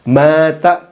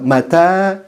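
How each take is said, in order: First: The first vowel is drawn out long. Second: The first vowel is kept short. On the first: It means died. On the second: It means when, as a question.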